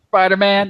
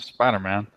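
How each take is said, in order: First: It is said with excited, enthusiastic energy. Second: It is said in a flat, unenthusiastic way. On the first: The speaker was truly impressed. "rather than being like Spider Man" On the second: The speaker was not impressed. "you'd be like Spider Man"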